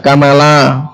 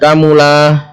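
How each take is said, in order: First: The m is followed by an a vowel. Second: The m is followed by a u vowel. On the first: "bisa kamala" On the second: "bisa kamula"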